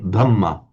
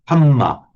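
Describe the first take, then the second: First: The word begins with a d sound. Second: The word begins with an h sound. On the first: The speaker calls it right. "not the Dhamma" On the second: The speaker calls it wrong. "the Thais will talk about the Hamma"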